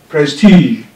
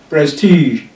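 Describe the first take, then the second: Both takes have the same delivery.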